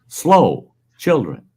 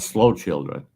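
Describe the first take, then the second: First: There is a pause between the two words. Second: The two words run together without a pause. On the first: Drivers should slow down because children are nearby. The speaker calls it right. "There should be a comma in that" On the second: The children are slow. The speaker calls it wrong.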